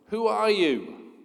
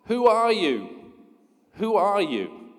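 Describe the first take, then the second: First: A slow, high yell into the mountains; a boy shouting a slow question; curious yell. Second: Slow, high, loud echo, then fading; a mountain echo that dies off; echoing answer. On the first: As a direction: call out to find who's there. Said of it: "he yells". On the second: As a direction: throw the question back like an echo. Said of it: "He receives the answer". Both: Acted.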